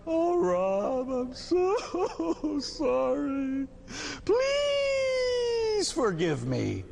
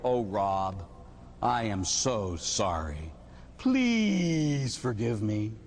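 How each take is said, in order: First: High, stretched-out fake wail; very slow, blubbering mock plea; mock sobbing apology. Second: Low, drawn-out apology; put-on solemn regret; mock remorse. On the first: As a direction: beg forgiveness in hammed-up tears. Hammed-up second apology. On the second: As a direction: apologize slowly and heavily, stretching "please". Acted apology after beating Rob.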